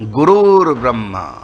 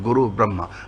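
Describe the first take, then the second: First: An r sound joins the first word to the second. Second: The two words are kept apart without a linking sound. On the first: "रा बन गया।" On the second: "दोनों को जोड़ दें तो क्या बन जाएगा?"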